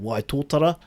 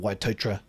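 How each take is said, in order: First: Every syllable of the name is fully pronounced. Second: One syllable near the end is dropped. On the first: "a place called Waitotara" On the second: "that's how the locals uh, pronounce it"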